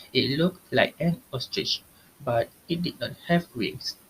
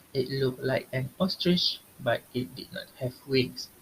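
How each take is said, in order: The two takes are said the same way.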